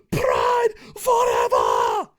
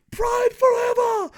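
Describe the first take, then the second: First: Loud, high yell with each word stretched long; yelling, more drawn out. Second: Loud, very high battle cry; yelling. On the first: Nostalgic reviewer cheering for old Pride, long drawn-out yelling. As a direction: scream it very slowly, word by word. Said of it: "in different ways". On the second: Nostalgic reviewer cheering for old Pride, yelling. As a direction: yell it high in one drawn-out burst. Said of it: "me yelling the word forever". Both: Acted.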